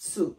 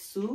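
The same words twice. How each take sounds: First: সু with a ts attack; pressed "tsu". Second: সু with a plain s; thin "su". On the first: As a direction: say সু as "tsoo". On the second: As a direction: say সু as a light "soo". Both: Shown as a demonstration. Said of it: "দুইটা pronunciation আমাকে মাথায় রাখতে হবে".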